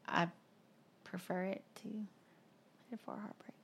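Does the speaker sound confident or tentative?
tentative. It is said tentatively, without much force.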